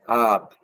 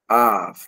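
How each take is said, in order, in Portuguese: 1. A palavra termina com som de b. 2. A palavra termina com som de v. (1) "Com ponto é ab" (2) "mas aqui"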